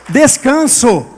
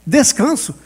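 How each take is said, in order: First: Descanso said loud and falling; firm preached word. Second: Descanso repeated a little softer, falling; softer echo. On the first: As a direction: proclaim Descanso firmly. (Descanso dito firme e forte) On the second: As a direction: let Descanso settle as an echo. (Descanso repetido mais suave) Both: Shown as a demonstration. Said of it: "pastor repete palavra-chave".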